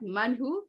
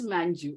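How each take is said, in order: First: The middle consonant is an H sound. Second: The middle consonant is a J sound. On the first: The speaker calls it wrong. "It is not Manhu" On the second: The speaker calls it right. "It is Manju"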